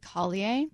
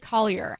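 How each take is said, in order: First: The name is said with a French-style ending. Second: The name is said the plain English way.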